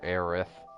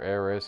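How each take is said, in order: First: The name ends with a th sound. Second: The name ends with an s sound. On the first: "sometimes it's you know T H at the end" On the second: "sometimes it's spelled like I S"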